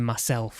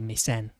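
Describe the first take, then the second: First: It is said in the standard form, 'myself'. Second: It is said in the dialect form, 'mysen'. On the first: "instead of saying myself" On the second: "we'll say mysen"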